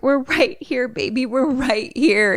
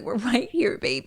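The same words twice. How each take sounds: First: High, slow soothing mom voice; mother reassuring. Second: Softer, matter-of-fact mom voice; speaker's own mom saying it, softer and plainer; my mom's version. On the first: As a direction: comfort a scared child you can't see. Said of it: "Mom's like". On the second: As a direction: say it lightly, like a real mom would. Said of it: "Mommy's just like, or my mom is just like". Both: Retold or imitated.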